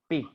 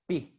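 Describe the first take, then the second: First: A strong, stopped b sound is made. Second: The same.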